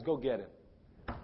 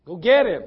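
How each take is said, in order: First: Low, slow, soft order; hushed, weighty summons; quiet command. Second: Loud, punched order to fetch someone; loud summons; urgent command. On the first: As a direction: say it gently and deliberately. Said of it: "he cries out and says". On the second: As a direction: call it out firmly. Preacher voices Jesus giving order. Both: Acted.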